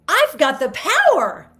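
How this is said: It sounds happy, with the pitch kept up. The speaker calls it right. "Do you see how happy that sounds?"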